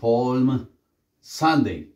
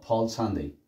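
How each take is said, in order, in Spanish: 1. La M se pronuncia, con una pausa antes de "Sunday". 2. La M se omite y se une directamente con "Sunday". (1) "no vamos a hacer una pausa para decir palm Sunday" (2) "Miren que no hago la M"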